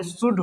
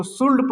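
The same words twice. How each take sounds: First: शुड with SH and no L; silent L. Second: सुल्ड with L heard before D; wrong sounded L. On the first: Teacher correcting the mistake, शुड with silent L. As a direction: say शुड leaving L out. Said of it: "शुड होगा". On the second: Teacher quoting a wrong reading, सुल्ड with L. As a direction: pronounce the L in सुल्ड. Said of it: "बिल्कुल गलत sound है". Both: Shown as a demonstration.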